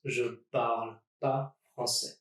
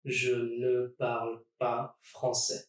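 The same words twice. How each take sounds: First: Je parle pas français with no ne at all; ne dropped. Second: Said in the usual way. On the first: Shown as a demonstration. Teacher dropping the ne in casual speech. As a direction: skip the ne, go straight from je parle to pas. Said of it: "drop that ne". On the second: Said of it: "use ne pas around your verb".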